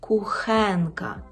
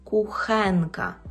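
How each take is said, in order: No difference in how they are said.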